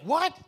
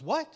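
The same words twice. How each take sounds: First: High, loud shocked "What?"; stunned shout. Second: Said in the usual way. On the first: Retold or imitated. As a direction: blurt it out in total disbelief. Son's disbelief, repeated louder.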